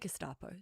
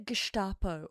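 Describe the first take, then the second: First: Gestapo gets a plain, ordinary English pronunciation. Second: Gestapo gets a fussy, foreign-style pronunciation. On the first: The speaker is just saying the word normally. The speaker calls it right. "Just say Gestapo" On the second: The speaker is showing off correct pronunciation. The speaker calls it wrong. "I hate it when people say Gestapo properly"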